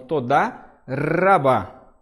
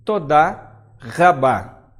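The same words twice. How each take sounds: First: The R is a light tongue-tip tap. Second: The R is made far back in the throat. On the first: "como se fosse esse R" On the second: "letrinhas chamadas guturais"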